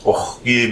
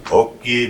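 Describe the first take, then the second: First: "Oki" with a throaty kh, "okh-ki"; inflection for water. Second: "Oki" with a clean k, "oh-ki"; inflection for hello. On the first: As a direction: rasp the back of the throat in the middle of "Oki". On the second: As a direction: say "Oki" with no throaty rasp before "ki". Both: Shown as a demonstration. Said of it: "changes the word from hello".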